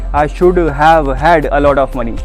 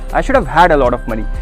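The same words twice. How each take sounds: First: 'Should have' is said slowly and evenly. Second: 'Should have' is rushed, then 'had' is clear. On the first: The speaker calls it wrong. "ऐसे नहीं" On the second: The speaker calls it right. "शुड हैव बहुत जल्दी बोल देते हैं और फिर हैड लगाते हैं खुल के"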